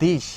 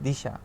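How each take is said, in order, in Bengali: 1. শব্দটি একটি ব্যঞ্জনধ্বনি দিয়ে শেষ হয়। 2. শব্দটি শেষে একটি যোগ করা 'a' স্বরধ্বনি দিয়ে শেষ হয়।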